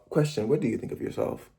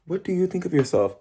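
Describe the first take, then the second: First: Softer repeat. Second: Pitched higher, put straight at the viewer; pointed question. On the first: To silent viewers, repeating the question softly. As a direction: drop the volume and ask again gently. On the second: To his viewers, asking pointedly and waiting for an answer. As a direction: lean into the camera and ask it. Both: Real, not acted.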